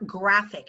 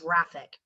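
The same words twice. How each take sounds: First: It begins with a hard G sound. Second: It begins with a soft J sound. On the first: The speaker calls it right. "the G stands for graphic" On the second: The speaker calls it wrong. "not graphic"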